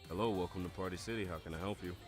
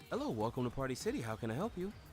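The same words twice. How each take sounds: First: It is said in a deep natural voice. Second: It is said in a raised, higher voice.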